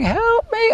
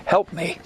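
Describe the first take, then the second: First: Very high, squeaky sped-up plea; tiny chipmunk-like cry for help; high-pitched fly voice. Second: Half-hearted scream at the spider; retold scream. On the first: Retold or imitated. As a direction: mimic the studio's pitched-up soundtrack. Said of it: "it was high-pitched". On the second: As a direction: recall the on-set scream lightly. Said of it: "I was screaming".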